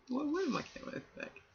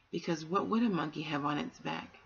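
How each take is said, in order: First: Much higher, softer and quick; amused musing. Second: Said in the usual way. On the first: Real, not acted. Reader musing to the children, high and soft. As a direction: toss the question up lightly, half to yourself.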